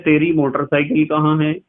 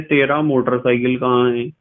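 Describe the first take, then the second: First: "तेरी motorcycle" said with feminine तेरी, ending in -ee; "तेरी" ending in ee before motorcycle; feminine form. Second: "तेरा motorcycle" said with masculine तेरा, ending in -a; "तेरा" ending in a before motorcycle; masculine form. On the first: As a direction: quote kids saying "तेरी motorcycle" with तेरी ending in ee. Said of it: "कुछ बच्चे कहते हैं". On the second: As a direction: quote kids saying "तेरा motorcycle" with तेरा ending in a. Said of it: "और कुछ बच्चे कहते हैं". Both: Retold or imitated.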